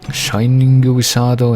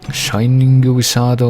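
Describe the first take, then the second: First: A vowel in the name is drawn out long. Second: The same.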